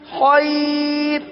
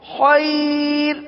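First: The r is said thin and light, as a pause. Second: The same.

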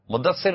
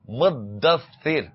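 First: The middle consonants are said short and single. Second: The middle consonants are held long and doubled. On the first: The speaker calls it wrong. "مدثر نہیں ہے" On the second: The speaker calls it right. "مدثر تو سا بھی دو ہو گئے تو double ہو گیا نا"

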